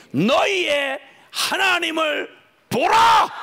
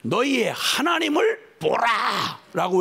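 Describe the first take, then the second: First: Slow, loud, high shout of 보라. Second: Said in the usual way. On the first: Shown as a demonstration. Pastor showing the congregation how to cry out, slow shout. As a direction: cry out 하나님을 보라 slowly at full voice. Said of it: "이렇게 외치는 겁니다". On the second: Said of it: "외치는 겁니다".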